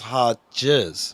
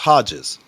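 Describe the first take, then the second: First: The word is said slowly. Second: The word is said quickly. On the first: "Sometimes you say it slow" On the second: "when you say it fast"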